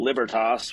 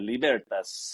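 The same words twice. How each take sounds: First: It is pronounced the Anglicized Germanic way. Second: It is pronounced the Italian way. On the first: "the Anglicanized Germanic" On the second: "think of like the Italian"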